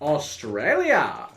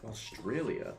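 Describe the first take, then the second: First: It is said in a put-on character voice. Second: It is said in a natural speaking voice.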